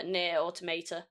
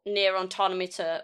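First: Automata said as auto-MAY-ta; alternative pronunciation. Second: Automata said as au-TOM-a-ta, slowly; alternative pronunciation. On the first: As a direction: say Automata with a "may" in the middle, softer. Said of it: "I just don't know". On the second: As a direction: stress the TOM in Automata, short vowels after. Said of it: "I called it the wrong one". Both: Shown as a demonstration.

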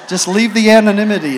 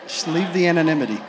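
First: Louder, pressing it home; firm loud order. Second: Quicker, laughing it off; laughing repeat. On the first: Preacher stopping the crowd naming movies, loud. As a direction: insist they stay anonymous. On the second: Preacher repeating the joke to the crowd, laughing. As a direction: say it again through a laugh. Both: Shown as a demonstration.

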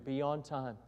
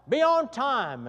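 First: Softer, lower, reading the rule as he writes; teacher writes the rule on the chalkboard, murmured; read while writing. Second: Called out higher from the back of the class; a student yells a rule suggestion; hollered rule. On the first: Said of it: "he got up there". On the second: A student shouts the rule from the back, called out. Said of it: "someone else hollered out". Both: Retold or imitated.

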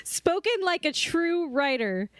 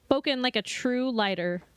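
First: "writer" said slowly and clearly with an r; slow, deliberate "writer" to fix the slip; careful correction. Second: "lighter" said with an l instead of "writer"; tongue slip, "lighter" for "writer"; accidental slip. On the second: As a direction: stumble into "lighter" by mistake. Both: Real, not acted. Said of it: "what I meant to say".

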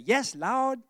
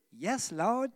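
First: "Yes, Lord" in a light Southern drawl; a hint of a Southern "Yes, Lord"; southern accent. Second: Said in the usual way. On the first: Shown as a demonstration. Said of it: "You gotta get your southern accent when you do that". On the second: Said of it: "You gotta get your southern accent".

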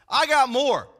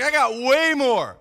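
First: Punchy, louder boast, falling at the end. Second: "way" stretched and punched loud; stress on WAY. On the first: Preacher voicing Paul outdoing all rivals, boasting. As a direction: retell it as a confident one-up. Paul's boast, first take. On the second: Preacher re-voicing Paul's boast to congregation, stressing "way". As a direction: boast with all the weight on "way". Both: Retold or imitated.

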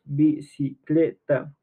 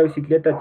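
First: "Bicicleta" slowly split into bi, ci, cle, ta; teacher counting out the syllables of "Bicicleta". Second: Said in the usual way. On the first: Shown as a demonstration. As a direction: break "Bicicleta" into four slow, separate syllables. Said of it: "tiene cuatro sílabas". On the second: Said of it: "la palabra bicicleta tiene cuatro sílabas".

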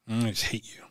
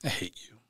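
First: Whispered "I just hate you", no voice; whispering hatred at the beer-drinking crowd. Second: Softer, flat-out quiet "I hate you"; quiet inner hatred toward the crowd that didn't help. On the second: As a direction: say "I hate you" softly, under your breath. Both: Retold or imitated. Looking at these people like.

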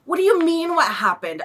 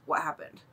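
First: High incredulous retort; baffled, indignant comeback; exasperated. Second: Low, quiet deadpan question; toneless, unhelpful reply; blank waitress. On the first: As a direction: throw the question back in disbelief. Exasperated retort to waitress's question. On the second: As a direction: imitate a waitress who just stares. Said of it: "she just looks at us and she goes". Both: Retold or imitated.

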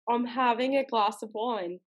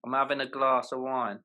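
First: Amateur British, "glass" as glahss; imitated British accent. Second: British with a long AH in "glass"; British demo, open "glass" vowel; British accent. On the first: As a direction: copy his British, long AH in "glass". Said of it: "transfer back to your homeland". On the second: Shown as a demonstration. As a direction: model it in British, "glass" as glahss. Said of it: "all the posh Ponzi people".

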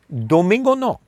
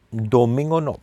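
First: "Domingo no" dicho mucho más agudo, con el "no" marcado y descendente; énfasis en no. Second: Said in the usual way. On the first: Shown as a demonstration. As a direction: subraya el "Domingo no" con tono alto y firme. Repeats "Domingo no" twice. ("Domingo no" agudo y enfático)

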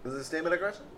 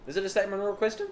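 First: Higher pitch, rising on "question"; upward inflection. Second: Fast, rising "question" at the end; upward inflection. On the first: Cohost copying the upspeak, upward inflection. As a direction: echo it with an upturn. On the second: Showing the teacher's upspeak, upward inflection. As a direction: end with a Cali girl upturn. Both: Shown as a demonstration. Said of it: "with an upward inflection".

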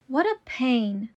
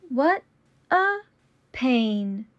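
First: Said in the usual way. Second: Slow, each word apart. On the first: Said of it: "repetition drill, normal take". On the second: Shown as a demonstration. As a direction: say it slowly, word by word. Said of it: "repetition drill, slowed take".

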